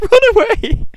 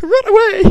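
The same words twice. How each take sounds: First: High, loud, laughing it out; squealing with laughter as soldiers flee. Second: High, loud squeal at fleeing men; excited squeal. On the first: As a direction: giggle through the words. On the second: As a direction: squeak it out gleefully. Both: Real, not acted. Mocking fleeing soldiers, laughing.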